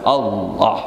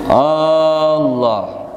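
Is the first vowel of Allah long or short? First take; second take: short; long. First: The first vowel is kept short. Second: The first vowel is drawn out long. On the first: The speaker calls it right. "Jadi bagaimana?" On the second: The speaker calls it wrong. "itu kada boleh"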